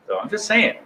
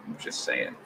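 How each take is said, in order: First: Said in the usual way. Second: Breathy whispered aside. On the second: Shown as a demonstration. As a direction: whisper it under your breath.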